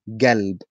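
The word begins with a g sound. This is the southern form. "In the south, they say galb"

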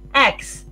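It is said in another English accent.

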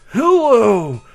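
It is said in a put-on old man voice. "Let's do a really good old man voice"

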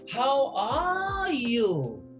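The stress is on "are".

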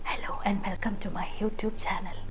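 The voice is airy, like escaping wind. "കാറ്റ് പോലെ ഇങ്ങനെ"

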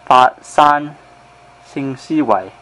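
It is pronounced in Cantonese.

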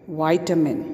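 It is said in an American accent.

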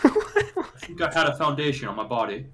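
It is said in a put-on British accent.

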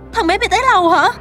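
The line is said with strong emotion. The speaker calls it wrong. "không thể quá xúc động như vậy được"

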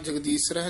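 The word is said loosely and slackly. The speaker calls it wrong. "ਪੋਲਾ ਨਹੀਂ ਬੋਲਣਾ ... ਨਹੀਂ ਕਹਿਣਾ"

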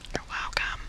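It is said in a whisper.

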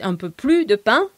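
The S in plus is silent. "That would be the Paris way of saying things"

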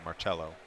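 The name is said with an Italian accent. The speaker calls it right. "Don't judge me for my Italian accent"

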